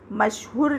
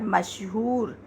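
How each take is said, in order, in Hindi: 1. आखिरी स्वर ह्रस्व ऊ है। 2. आखिरी स्वर दीर्घ ऊ है। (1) "मशहूर नहीं होता" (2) "मशहूर में बड़े ऊ की आवाज़ आ रही है"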